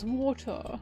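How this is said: The T in the middle is clearly pronounced. The speaker sounds upper class. "the posh accent is water"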